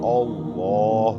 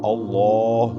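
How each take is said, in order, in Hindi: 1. लंबा स्वर गोल होंठों से बोला जाता है। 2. लंबा स्वर गोल होंठों से बोला जाता है।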